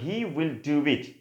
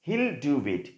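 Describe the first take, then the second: First: Both words 'he will' are said in full. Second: 'He will' is merged into one syllable 'he'll'. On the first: "আমরা বলতে পারি হি উইল do it" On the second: "contracted form কি? হিল"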